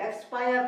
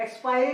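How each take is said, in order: First: एक्सपायर ending in "ar", no final "ee"; correct reading of expire. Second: एक्सपायरी with an extra final "ee"; wrong reading of expire. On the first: Teacher gives the right reading, correct एक्सपायर. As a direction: model एक्सपायर with a "paa-yar" ending. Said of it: "पढ़ेंगे". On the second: Teacher warns against voicing the e, mispronounced एक्सपायरी. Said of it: "नहीं पढ़ेंगे". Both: Shown as a demonstration.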